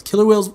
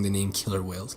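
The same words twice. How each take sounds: First: Put-on a childish blurt of the name, higher and louder; mocking how a kid would say it. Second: Said in the usual way. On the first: Mocking a kid's way of naming the orca, high and loud. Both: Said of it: "that's what a fucking kid says".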